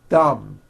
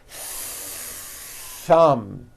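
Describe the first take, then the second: First: The th is short with no hissing air. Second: The th is held long with hissing air. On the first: The speaker calls it wrong. "My tongue came out, but there was never any air friction" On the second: The speaker calls it right. "Notice how long I'm holding the T H sound"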